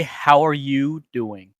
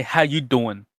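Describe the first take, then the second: First: "How are you doing", slow, every word separate, ARE included; fully pronounced phrase. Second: "How you doing", dropping ARE; casual American greeting. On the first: Coach gives streamer a line to repeat, slow and complete. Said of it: "Say, "How are you doing?". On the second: Coach models American slang for streamer, relaxed and elided. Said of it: "Now say, "How you doing?". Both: Shown as a demonstration.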